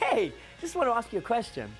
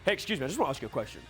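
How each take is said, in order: First: It sounds warm and friendly, half laughing. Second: It sounds stern and unfriendly, like frowning.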